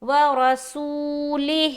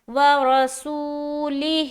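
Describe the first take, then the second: No difference in how they are said.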